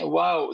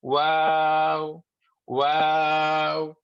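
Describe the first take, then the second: First: Short "واو" as in English; quick, conversational English "واو"; English wow. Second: "واو" held long with tongue back raised; slow, sustained Arabic "واو"; Arabic waw. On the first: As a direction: say "واو" with the back of the tongue down. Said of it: "زبان پیچھے سے اٹھتی نہیں ہے". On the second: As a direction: stretch "واو" on a level note, back of tongue lifted. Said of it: "عربی میں واو پڑھیں گے تو زبان تھوڑی سی پیچھے سے اٹھے گی". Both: Shown as a demonstration.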